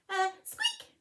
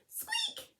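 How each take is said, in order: First: Higher mouse voice, small squeak; a tiny nervous noise. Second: Very high, soft squeaky peep; tiny squeak. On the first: Mouse squeaking at the lion, high and meek. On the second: Mouse squeaking mid-plea to the lion, very high and soft. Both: Acted.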